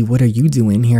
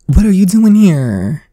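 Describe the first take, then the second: First: Said in the usual way. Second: High, loud, startled cry; shocked high exclamation. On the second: Acted. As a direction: gasp it out as the stunned girl at her party. Voicing the game character's line.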